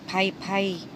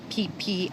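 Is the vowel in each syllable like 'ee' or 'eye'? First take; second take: eye; ee. First: Each syllable has an 'eye' vowel sound. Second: Each syllable has an 'ee' vowel sound. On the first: "I want to say Pai Pai" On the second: "maybe it's P P, I'm not sure"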